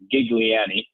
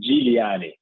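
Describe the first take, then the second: First: The name starts with a hard G sound. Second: The name starts with a soft G sound. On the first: This is how it is usually said in the US. "the way I usually hear it being said in the U S is Gigliani with a strong G" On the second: This is the Italian way to say it. "the Italian way to pronounce it would be Giuliani"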